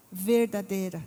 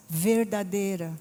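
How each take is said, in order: Both takes have the same delivery.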